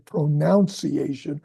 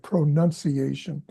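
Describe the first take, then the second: First: The second syllable sounds like 'noun'. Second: The second syllable sounds like 'nun'. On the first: The speaker calls it wrong. "I didn't say pronunciation" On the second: The speaker calls it right. "I said pronunciation"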